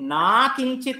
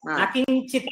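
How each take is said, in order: First: The vowel of the first word is long. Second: The vowel of the first word is short. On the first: The speaker calls it wrong. "ना किञ्चित् इति नास्ति" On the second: The speaker calls it right. "न किञ्चित् इति वक्तव्यं"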